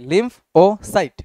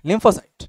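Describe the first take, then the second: First: "লিম্ফ, ও, সাইট" as three distinct pieces with short gaps; split by syllable. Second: Said in the usual way. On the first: Shown as a demonstration. Teacher showing students how to read it, "লিম্ফ-ও-সাইট" split into syllables. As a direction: break "লিম্ফ ও সাইট" apart for learners. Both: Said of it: "syllable ভেঙ্গা ভেঙ্গা পড়ো".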